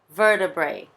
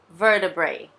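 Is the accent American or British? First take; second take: American; American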